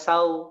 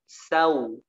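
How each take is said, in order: First: The syllable is said abruptly, without softening. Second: The syllable is said softly, with a gentle glide. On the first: The speaker calls it wrong. "Jangan sau" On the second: The speaker calls it right.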